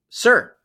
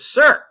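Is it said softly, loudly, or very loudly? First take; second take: loudly; very loudly. First: It is said loudly. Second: It is said very loudly.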